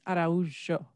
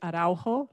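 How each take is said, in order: First: The name is pronounced the Portuguese way. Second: The name is pronounced the Spanish way. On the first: This is the original form of the name. "but it's Araujo" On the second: This is how locals say it. "people here in San Diego say Araujo, like Spanish"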